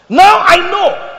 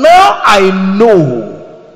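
First: "Now I know" cried out high and loud; high ringing emphasis. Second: "Now I know" stretched very slowly and loud; drawn-out emphasis. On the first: Preacher voicing God to Abraham, high loud ringing "Now I know". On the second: Preacher voicing God to Abraham, slow loud stretched "Now I know". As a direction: linger heavily on "Now I know". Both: Shown as a demonstration.

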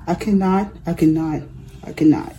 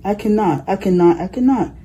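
First: Tired, dropping and softer each time; an old engine giving up; weary refusal. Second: Rhythmic chug on each cannot; a tired engine puffing away; chugging rhythm. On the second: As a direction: beat it out like engine wheels. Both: A narrator's reading.

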